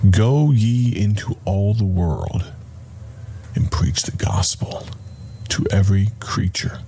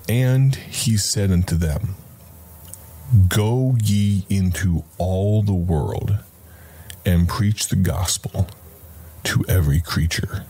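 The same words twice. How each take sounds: First: Compassionate. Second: Solemn reading. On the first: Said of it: "but also compassionate". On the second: Preacher reading the verse aloud to listeners. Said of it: "think about tone of voice". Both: Shown as a demonstration.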